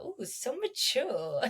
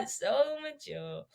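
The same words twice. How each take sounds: First: Slow, soft, teasing awe; mock impressed. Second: Slow, soft, teasing awe; drawn-out fake admiration; mock impressed. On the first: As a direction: coo it with fake admiration. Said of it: "I'm like". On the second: Repeats slower, softer.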